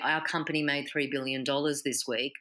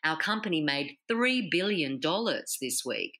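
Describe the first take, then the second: First: Said flatly, with no key words punched out. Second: Said with energy, with key words punched out. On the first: The speaker calls it wrong. "You're not going to say" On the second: The speaker calls it right. "add that emotion in the voice and pop those keywords"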